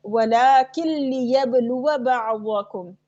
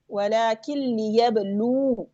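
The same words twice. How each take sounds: First: Slow recited "लियबलुआ बअदकुम" linked by a short wa; joined reading. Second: Slow "लियबलू" ending on a long oo; waqf stop. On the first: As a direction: run "लियबलुआ" on into "बअदकुम", measured and chanted. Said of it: "मिला के जब पढ़ेंगे". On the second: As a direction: stop and hold the oo of "लियबलू", no final a. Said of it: "जब वक्फ करेंगे". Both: Shown as a demonstration.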